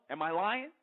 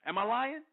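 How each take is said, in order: First: Said in the usual way. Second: Higher and louder, pressing the point; demanding rhetorical repeat; insistent repeat. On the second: Real, not acted. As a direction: push the question again, daring them to deny it. Rhetorical question repeated for emphasis.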